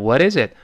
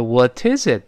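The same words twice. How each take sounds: First: "What is it" with the T softened to a quick flap; voiced flap T. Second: "What is it" with a clear T before "is"; unvoiced T. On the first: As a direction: flick the T of "What" like a light R into "is". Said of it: "变成". ("What is it" t 浊化，轻轻弹舌) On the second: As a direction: say "What is it" keeping the T crisp and aspirated. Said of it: "语速再快就浊化了". ("What is it" t 不浊化，读清楚) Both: Shown as a demonstration.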